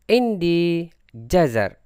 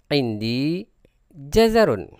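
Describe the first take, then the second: First: The last word stops on a bare final consonant. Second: The last word ends with a full '-un' ending.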